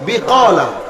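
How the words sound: The middle consonant is a k sound. This is the actual form of the word. The speaker calls it right. "শব্দ কি বিকলা"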